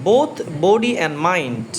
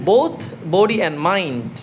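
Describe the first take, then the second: No difference in how they are said.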